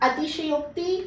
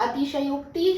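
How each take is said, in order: Both takes have the same delivery.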